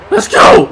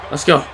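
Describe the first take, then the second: First: High, loud battle cry; real pumped-up holler; rallying shout. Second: Said in the usual way. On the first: Real, not acted. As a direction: yell to fire yourself up. Rallying in game, second take.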